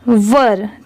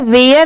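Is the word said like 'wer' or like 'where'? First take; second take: wer; where. First: The word sounds like 'wer', with a short vowel. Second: The word sounds like 'where', with a long vowel. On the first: The speaker calls it right. "इसकी correct pronunciation है वर" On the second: The speaker calls it wrong. "बहुत सारे लोग इसे गलत pronounce करते हैं, इसे वेयर नहीं पढ़ेंगे"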